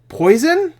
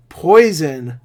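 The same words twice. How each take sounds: First: POISON pitched way up as a question. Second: POISON drawn out, falling at the end; flat confirmation. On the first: One character questions the other, high questioning POISON. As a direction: draw out POISON with a steep questioning rise. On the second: Other character answers in the movie, falling, stated POISON. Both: Retold or imitated. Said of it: "the other character goes".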